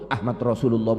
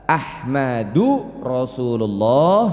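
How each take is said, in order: First: The first word ends on a bare d consonant. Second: The first word ends with a short u vowel. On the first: The speaker calls it wrong. "Jangan juga disukun" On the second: The speaker calls it right. "yang pertama tidak menggunakan tanwin"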